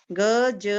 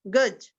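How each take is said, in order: First: गज split into a long ग and a long ज; sounded out. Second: Said in the usual way. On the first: Shown as a demonstration. Teacher spelling गज for children, drawn out by sound. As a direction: stretch गज as two letter sounds. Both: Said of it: "इसका शुद्ध उच्चारण जो गज".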